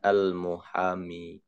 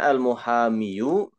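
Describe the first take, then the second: First: The word ends in a plain long 'i'. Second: The word ends with a voiced final vowel 'yu'. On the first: "disimpan domahnya, tetap dibaca al-muhami" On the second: "Harusnya al-muhamiyu"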